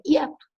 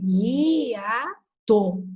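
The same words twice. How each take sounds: First: "hiato" quick, with I and A glided into one syllable, YA-to; read as diphthong. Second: "hiato" very slowly split into I - A - TO; read as hiatus. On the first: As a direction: squeeze "hiato" into two syllables, YA-to. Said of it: "Se ela fosse ditongo". ("hiato" lido como ditongo, IA-to) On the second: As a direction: separate every syllable of "hiato", stretching I and A apart. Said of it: "não é assim que eu leio". ("hiato" bem separado, i-a-to, devagar) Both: Shown as a demonstration.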